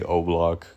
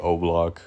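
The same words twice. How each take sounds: First: The name is said to sound like 'O-Block'. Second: The name is said to sound like 'O-Block'.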